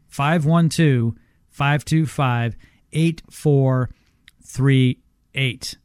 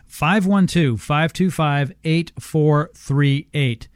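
First: The number is said slowly. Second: The number is said at normal pace.

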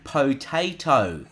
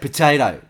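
First: Every syllable is pronounced fully and carefully. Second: The syllables are relaxed and reduced. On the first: The speaker calls it wrong. "I kept saying potato because that's how you pronounce it" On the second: The speaker calls it right. "you're meant to say potato"

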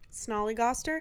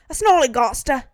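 First: It is said in an American accent. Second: It is said in a British accent.

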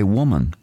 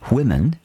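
First: It is said in a New Zealand accent. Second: It is said in a standard English accent.

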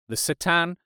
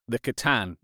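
First: The name is said with a French flair. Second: The name is said in a plain English way. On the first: "if you want to say it with a French flair" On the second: "they're called"

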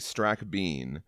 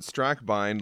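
First: The last syllable rhymes with the word 'bean'. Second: The last syllable rhymes with the word 'Einstein'. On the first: This is how relatives from the South say it. "My family in Arkansas say Strack Bean" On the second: This is the East Coast way of saying it. "I pronounce it Strackbine like Einstein"

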